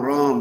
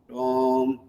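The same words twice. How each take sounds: First: Ram is repeated very fast. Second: Ram is repeated slowly.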